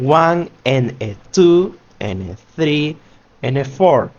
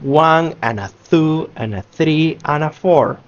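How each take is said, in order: First: Each small word is said fully and separately. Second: The small words are reduced and run together. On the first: The speaker calls it wrong. "we are done saying" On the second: The speaker calls it right. "We are saying"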